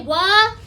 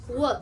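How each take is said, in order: First: "wha" drawn out as wuh, rising; louder "wha" with an uh tacked on; added uh. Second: "Whoa" as a clipped w sound, no uh; low, brief "Whoa", vowel cut off; short sound. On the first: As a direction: stretch "wha" into a questioning wuhh. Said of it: "Cut off that uh". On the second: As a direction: say "Whoa" as just a quick, low w. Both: Shown as a demonstration.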